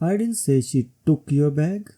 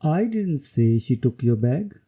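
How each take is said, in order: First: The word took is stressed. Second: The word I is stressed. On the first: Maybe she borrowed it. "When emphasis is on took" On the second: Somebody else said it. "When emphasis is on I"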